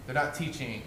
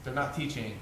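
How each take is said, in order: Both takes have the same delivery.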